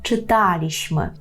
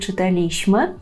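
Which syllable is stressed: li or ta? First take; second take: ta; li. First: The stress falls on the syllable ta. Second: The stress falls on the syllable li. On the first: The speaker calls it right. "правильно" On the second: The speaker calls it wrong. "ви можете від носіїв мови почути вимову"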